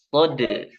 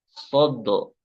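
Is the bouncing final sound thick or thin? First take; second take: thin; thick. First: The final bounce has a thin, light vowel. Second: The final bounce has a thick, dark o vowel. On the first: The speaker calls it right. "Harus ditipiskan pemantulannya. ... itu yang benar" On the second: The speaker calls it wrong. "pemantulannya jadi huruf o"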